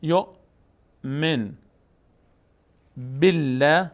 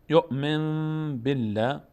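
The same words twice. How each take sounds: First: یؤمن with clear n, long pause, then بالله; very slow یؤمن, separate from بالله; as written. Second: یؤمن بالله joined slowly by a long m; n turned to m. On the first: Teacher reads the written words, یؤمن and بالله apart, plain n. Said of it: "بعد از نون ساکن به آمده". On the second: Teacher models the rule, یؤمن بالله with held m. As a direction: hum from یؤمن into بالله, m instead of n. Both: Shown as a demonstration.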